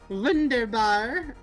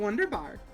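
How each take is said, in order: First: It begins with a V sound. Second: It begins with a W sound. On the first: The speaker calls it right. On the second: The speaker calls it wrong.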